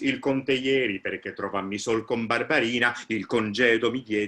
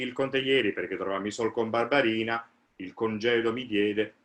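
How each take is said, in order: First: Both parts flow together as one connected thought. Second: The two parts are split apart by a break. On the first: The speaker calls it right. "the phrase is" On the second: The speaker calls it wrong. "shouldn't be"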